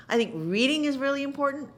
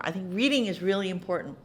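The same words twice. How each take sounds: First: "is" stressed on the repeat, pitched higher; emphatic repeat. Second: Said in the usual way. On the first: Shown as a demonstration. Advising young actors, insisting with stress on "is". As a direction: lean on "is" to insist.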